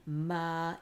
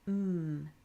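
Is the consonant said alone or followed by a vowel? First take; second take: with vowel; alone. First: The consonant is followed by an extra vowel. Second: The consonant is said alone, with no vowel. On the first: The speaker calls it wrong. "We're not saying ma" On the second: The speaker calls it right. "We'll say mm"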